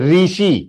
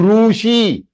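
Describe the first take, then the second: First: The first syllable sounds like 'ri'. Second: The first syllable sounds like 'ru'. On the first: The speaker calls it wrong. "काफी लोग कैसे pronounce करते हैं? ... Wrong" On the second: The speaker calls it right. "Long one ऋषि. It is ऋषि"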